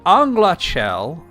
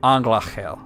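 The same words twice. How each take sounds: First: The middle consonant is a plain hard k. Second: The middle consonant is a throaty guttural ch. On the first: The speaker calls it wrong. "which is the way I normally say it, is not really correct" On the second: The speaker calls it right. "extremely hard for me to consistently say"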